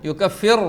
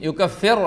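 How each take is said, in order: Both takes have the same delivery.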